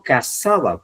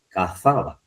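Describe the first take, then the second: First: Cazaba with an s sound for the z; pronounced with S. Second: Cazaba with a Castilian th sound for the z; tongue between teeth on the z of cazaba; pronounced with Z. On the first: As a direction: say cazaba as casaba, 'married'. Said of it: "cazar con S". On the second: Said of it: "cazar con Z". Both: Retold or imitated.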